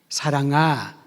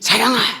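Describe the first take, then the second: First: The name is called softly and tenderly. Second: The name is called plainly, without tenderness.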